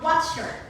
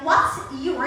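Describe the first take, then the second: First: The two words blend into a ch sound. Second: The two words are said separately and clearly.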